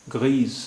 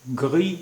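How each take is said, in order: First: ग्रीज ending in a buzzing z; French grise. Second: ग्री with a uvular r and silent s; French gris. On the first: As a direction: say ग्रीज, uvular r and a final z. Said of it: "feminine singular". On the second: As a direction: say ग्री, end on the i with no z. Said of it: "masculine singular". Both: Shown as a demonstration.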